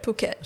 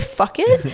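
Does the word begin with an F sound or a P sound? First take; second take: P sound; F sound. First: The word begins with a P sound. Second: The word begins with an F sound. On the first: The speaker calls it right. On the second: The speaker calls it wrong.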